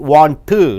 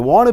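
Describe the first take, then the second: First: Both the N and the T are clearly pronounced. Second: The T merges into the N and is dropped. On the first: The speaker calls it wrong. "You don't say N plus T" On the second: The speaker calls it right.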